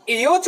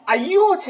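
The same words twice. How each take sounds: First: एयोच said with a long "e" at the start; the students' "e-yoch" for एयोच; wrong pronunciation. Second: अयोच said with a short "a" at the start; the correct "a-yoch" for अयोच; correct pronunciation. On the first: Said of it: "बोल देते हैं कई बार". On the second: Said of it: "ये ऐ की मात्रा है". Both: Shown as a demonstration.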